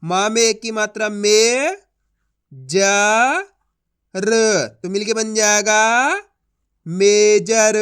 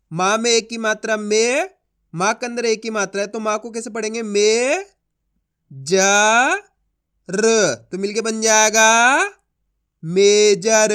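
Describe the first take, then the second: First: Slow and loud, letter by letter; slow spelling-out demo again. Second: Slow and loud, letter by letter; slow spelling-out demo. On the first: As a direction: repeat the blending, then punch major. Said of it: "चलिए एक बार फिर से देखिए". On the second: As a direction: stretch each sound, then land loud on major. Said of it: "देखो किस तरीके से इनको आपस में मिला के पढ़ा जाता है". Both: Shown as a demonstration.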